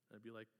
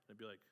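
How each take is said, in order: Both takes have the same delivery.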